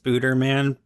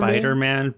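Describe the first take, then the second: First: The first syllable is said with an 'oo' vowel. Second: The first syllable is said with an 'eye' vowel. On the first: The speaker calls it wrong. "I know it's not pronounced Spooderman" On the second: The speaker calls it right.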